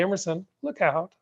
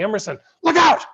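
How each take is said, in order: First: It is calm, with no accent on the end. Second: It is urgent, with the last word accented. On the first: Nothing alarming is happening. The speaker calls it wrong. "I wouldn't say" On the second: There is real, immediate danger. The speaker calls it right. "I might accent the last word... something exciting"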